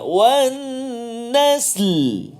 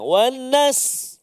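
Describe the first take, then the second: First: Both the s and the l are heard. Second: Only the s is heard at the end. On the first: The speaker calls it right. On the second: The speaker calls it wrong.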